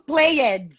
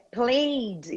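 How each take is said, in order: First: The word is said with two syllables. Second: The word is said with one syllable. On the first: The speaker calls it wrong. "tá falando played" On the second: The speaker calls it right. "Não, gente, É played"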